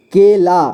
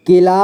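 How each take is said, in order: First: केला split as के, ला; syllable by syllable. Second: Said in the usual way. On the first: Shown as a demonstration. Teacher showing learners केला, sounded out in parts. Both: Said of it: "इसे पढ़ेंगे".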